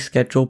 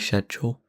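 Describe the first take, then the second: First: It is said in a non-British way. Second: It is said in a British way.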